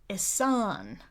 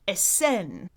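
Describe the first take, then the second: First: The second vowel is not an eh sound. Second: The second vowel is an eh sound. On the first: The speaker calls it wrong. "American English, so I said it that way" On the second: The speaker calls it right. "she wanted the second vowel pronounced more like eh"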